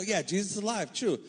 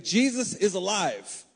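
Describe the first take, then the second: First: "Yeah, Jesus is alive" tossed off quickly and lightly; offhand stock phrase. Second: "Jesus is alive" said slowly and higher, each word weighed; slow weighty proclamation. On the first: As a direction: say it like a cliché you don't think about. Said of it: "a phrase that we as Christians use". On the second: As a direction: make them feel it's true. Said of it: "we take that as a phrase". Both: Shown as a demonstration.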